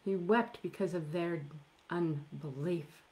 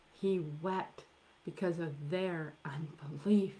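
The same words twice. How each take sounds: First: Said in the usual way. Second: "unbelief" whispered, breath only. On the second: Shown as a demonstration. Preacher repeating why Jesus wept to the congregation, whispered. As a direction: drop the repeat to a hushed whisper.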